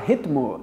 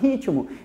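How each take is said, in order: First: It is said with no vowel after the t. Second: An extra i sound is added after the t. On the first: The speaker calls it wrong. "ninguém fala ritmo" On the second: The speaker calls it right. "A gente fala ritmo"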